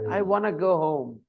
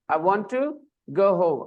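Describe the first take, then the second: First: 'Want to' is blended together into 'wanna'. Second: Both words of 'want to' are said clearly. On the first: "Americans often say" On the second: "I wanna go home means I want to go home"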